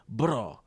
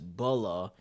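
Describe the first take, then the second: First: The name is said with a Japanese accent. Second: The name is said with an English accent.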